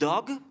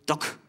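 First: The final consonant is soft and voiced. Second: The final consonant is hard and voiceless. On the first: "nicht Dog" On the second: "machen daraus schön Dog"

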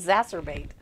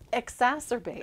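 First: The word starts without its opening vowel. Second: The word starts with its full opening vowel. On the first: The speaker calls it wrong. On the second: The speaker calls it right.

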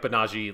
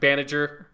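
First: The name is pronounced in its Japanese form. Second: The name is pronounced following its English spelling. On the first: "Let's just stick with the Japanese" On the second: "if you look at the spelling, it's supposed to be pronounced Banager"

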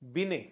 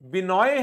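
First: The name ends with an 'ay' sound. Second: The name ends with an 'oy' sound. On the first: The speaker calls it right. "बिने Chaudhary" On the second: The speaker calls it wrong. "तो हमें बिनोय गलत बोल रहा था फिर"

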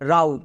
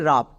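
First: The vowel sounds like 'ow' in 'cow'. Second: The vowel sounds like 'uh' in 'cup'. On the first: The speaker calls it wrong. "কিন্তু এটা হচ্ছে আমাদের একদম ভুল উচ্চারণ" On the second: The speaker calls it right. "এর উচ্চারণটা হবে রাব"

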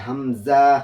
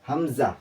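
First: The vowel is stretched and drawn out. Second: The vowel is short, not drawn out. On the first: The speaker calls it wrong. "অনেকেও আছে যে হামজা এইভাবে টানে" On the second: The speaker calls it right. "হামজাতে কোনো টান হবে না।"

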